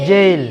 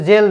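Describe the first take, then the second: First: Loud জেইল gliding "e" to "i"; correct diphthong. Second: জেল with a single "e", no glide; wrong short vowel. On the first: Teacher corrects the word, loud gliding জেইল. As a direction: stretch জেইল through the glide before the l. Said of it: "কি হবে?". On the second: Teacher shows what it is not, unglided জেল. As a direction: say জেল straight, Bengali style. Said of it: "এটা কিন্তু জেল না". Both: Shown as a demonstration.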